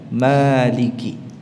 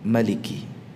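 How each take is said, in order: First: The vowel after the m is long. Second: The vowel after the m is short. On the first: It means ruler. "dengan menetapkan alif setelah mimnya" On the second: It means king. "yang mimnya dibaca dengan pendek"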